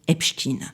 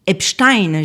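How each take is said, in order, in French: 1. Le nom se prononce à l'américaine. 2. Le nom se prononce à l'allemande. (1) "Dans l'usage américain, ... son nom est prononcé Epstein" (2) "La version Epstein germanisé"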